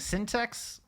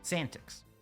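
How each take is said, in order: First: The name sounds like the word syntax. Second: The name rhymes with the end of semantics. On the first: The speaker calls it wrong. "I think I've been saying syntax" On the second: The speaker calls it right. "I think it's Santix. Like semantics, but Santix"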